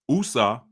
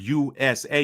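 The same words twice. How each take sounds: First: The first letter is said like 'oo'. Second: The first letter is said like 'you'. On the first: "take that U sound and make it oo" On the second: "instead of U"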